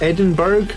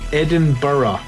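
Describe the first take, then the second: First: The ending sounds like 'berg'. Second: The ending sounds like 'borough'. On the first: The speaker is a tourist, not from Scotland. The speaker calls it wrong. "A lot of people from America called it Edinburgh, which I guess is kind of how you pronounce it" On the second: The speaker says it the way locals do. The speaker calls it right. "if you ever visit Scotland, you say this is Edinburgh. I don't know why you say borough"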